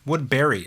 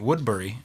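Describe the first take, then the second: First: The ending sounds like the name Barry. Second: The ending does not sound like Barry. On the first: The speaker calls it right. "I think, is how you pronounce it" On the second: The speaker calls it wrong. "I always was pronouncing it Woodbury"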